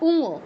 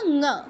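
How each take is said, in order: First: It starts with an 'u' vowel before the nasal. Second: It is a bare nasal made at the throat. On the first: The speaker calls it wrong. "বাংলায় পাঁচ নম্বরটাকে কি বলি" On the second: The speaker calls it right. "উঙো বা উমো নয়"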